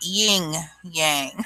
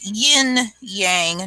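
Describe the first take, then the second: First: The first word ends with an ng sound. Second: The first word ends with an n sound. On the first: The speaker calls it wrong. "not ying yang" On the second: The speaker calls it right. "it's yin yang"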